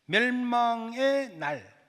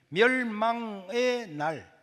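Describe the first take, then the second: The two takes are said the same way.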